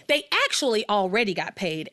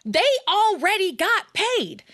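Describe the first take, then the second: First: Said in the usual way. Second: Emphatic objection. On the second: Shown as a demonstration.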